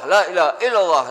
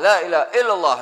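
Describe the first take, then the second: The two takes are said the same way.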